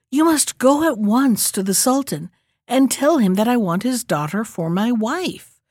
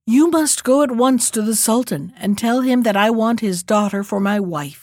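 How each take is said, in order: First: Impatient. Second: Said in the usual way. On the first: Acted. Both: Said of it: "repeated the youth impatiently".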